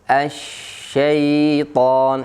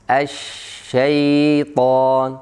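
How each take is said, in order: The two takes are said the same way.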